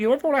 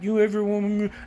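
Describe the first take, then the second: First: The question is asked in a relaxed, casual way. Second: The question is asked in an odd, creepy way. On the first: The speaker calls it right. "No, I just go" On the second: The speaker calls it wrong. "I don't say it weird"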